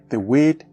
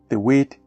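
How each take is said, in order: Both takes have the same delivery.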